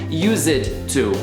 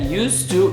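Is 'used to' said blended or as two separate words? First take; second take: separate; blended. First: The two words are pronounced fully and separately. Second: The two words blend into one smooth form. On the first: The speaker calls it wrong. "e não used to, como muita gente pronuncia" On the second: The speaker calls it right. "a pronúncia é used to"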